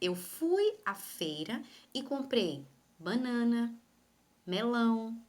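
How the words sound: A short pause separates each listed item. The speaker calls it right. "Eu tenho que pausar. Porém, essa pausa, essa parada, é uma parada pequena"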